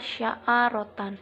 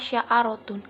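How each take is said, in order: First: The word ends with an 'an' sound. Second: The word ends with an 'un' sound. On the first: The word is in the accusative case. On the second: The word is in the nominative case. "Lafaz sya'arotun dibaca rofa"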